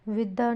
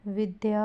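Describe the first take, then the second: First: विद्या as "vidda", no "y" glide; misspelling read out. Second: Said in the usual way. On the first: Shown as a demonstration. Teacher showing a misspelling, glide missing. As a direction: drop the "y" in विद्या. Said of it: "नहीं होगा". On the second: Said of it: "होगा".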